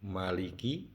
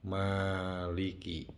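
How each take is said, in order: First: The first vowel is held short. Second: The first vowel is drawn out long. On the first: "aya anu dibaca pendek" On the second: "aya anu dibaca panjang"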